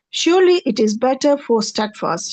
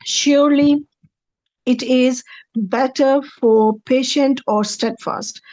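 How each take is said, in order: First: Said in the usual way. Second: "Surely" raised, pause, then the rest slowly; slow careful translation. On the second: Shown as a demonstration. Teacher reading out the verse translation for students, slow. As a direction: read the translation slowly, weighing each word. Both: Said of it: "Translation is".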